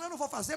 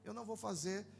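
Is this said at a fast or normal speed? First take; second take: fast; normal. First: It is spoken very fast, as if sped up. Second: It is spoken at a normal, relaxed speed. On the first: A curt refusal that can seem rude. "Vamos pôr na velocidade dois?" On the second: A polite refusal with a reason. "na velocidade normal eu falo"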